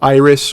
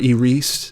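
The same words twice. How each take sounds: First: The name is said in a plain, everyday way. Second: The name is said in a fancy way.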